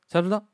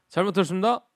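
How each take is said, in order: First: The phrase is so short it is barely audible. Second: The phrase is said somewhat shorter. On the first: The speaker is a sergeant. "병장까지 가면 이제 거의 안 들리죠" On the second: The speaker is one rank higher. "1병으로 가게 되면"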